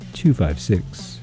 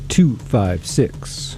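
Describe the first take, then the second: First: It is said at a normal pace. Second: It is said slowly.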